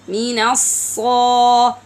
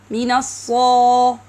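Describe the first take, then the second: First: The s sound has a strong whistle. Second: The s sound has a weak whistle. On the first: The speaker calls it right. "make sure to listen to the whistle sound properly" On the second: The speaker calls it wrong. "weakens its whistling ... This is wrong"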